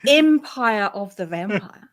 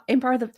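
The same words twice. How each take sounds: First: "Empire" slowly, with a clear "em" at the start; "Empire of the Vampire" said slowly and deliberately, "Em" open and clear; careful correction. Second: "Empire" said in a New Zealand accent, close to "Umpire"; "Empire" with the first vowel flattened toward "um", Kiwi style. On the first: Shown as a demonstration. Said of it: "Empire, sorry". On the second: Real, not acted. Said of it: "Kiwi accent".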